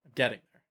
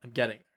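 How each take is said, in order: Both takes have the same delivery.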